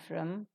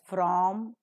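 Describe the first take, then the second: First: The word is said with a reduced vowel. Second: The word is said with a full vowel. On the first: "it's always reduced to its weak form" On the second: "It is pronounced as from"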